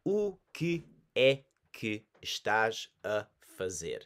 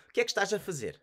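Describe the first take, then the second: First: Slow, clear, every syllable given; slow and careful. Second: Quick, syllables swallowed, pitched higher; native speed. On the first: Teacher slowing down for beginners, slow and clear. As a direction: say it slowly for learners. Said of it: "Again, I'll say nice and slow". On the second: Teacher showing the authentic native version, quick and run together. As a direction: say it like a local would. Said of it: "as authentically and genuinely as possible". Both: Shown as a demonstration.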